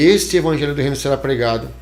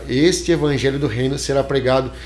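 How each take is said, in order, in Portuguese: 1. A frase é falada em ritmo normal. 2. A frase é falada bem mais devagar.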